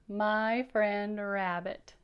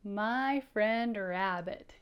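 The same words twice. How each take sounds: First: Slow, each word drawn out; careful slow reading; slow title read. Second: Slow, word by word; drawn out title for kids; slow clear reading. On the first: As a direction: read the title slowly and clearly. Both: Shown as a demonstration. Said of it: "Can you read that?".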